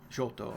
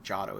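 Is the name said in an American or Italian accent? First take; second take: Italian; American. First: The name is said in an Italian accent. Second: The name is said in a relaxed American accent. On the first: "if you want" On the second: "I say it in the lazy American accent"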